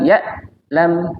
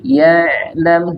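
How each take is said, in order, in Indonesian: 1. Bunyi ain terputus secara tiba-tiba. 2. Bunyi ain mengalir terus tanpa berhenti. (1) "dia bukan berhenti, bukan ya lam" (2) "tapi ya lam, dia mengalir saja"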